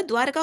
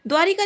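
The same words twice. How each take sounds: First: द्वारका said without the i, dvaar-ka; द्वारका, no vowel after r, as the right form; correct form shown. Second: द्वारिका said with an i after r, dvaa-ri-ka; द्वारिका, ri vowel in the middle, as the mistake; wrong form shown. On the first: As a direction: clip द्वारका to two beats, dvaar-ka. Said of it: "द्वारका होता है". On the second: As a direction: say द्वारिका with the extra ri syllable. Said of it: "द्वारिका नहीं होता". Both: Shown as a demonstration.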